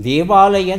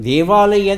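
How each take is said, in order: The two takes are said the same way.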